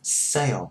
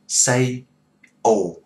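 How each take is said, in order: First: The two vowel parts glide together smoothly. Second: The vowel is split into two separate syllables. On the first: The speaker calls it right. "để cho nó gần với nhau, cho nó dính với nhau đó" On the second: The speaker calls it wrong. "đừng có đọc nó tắt ra theo kiểu tiếng Việt của mình, đừng có đọc say ồ"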